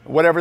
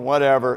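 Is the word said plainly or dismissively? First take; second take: plainly; dismissively. First: It is said plainly, without attitude. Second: It is said dismissively, like a smug kid.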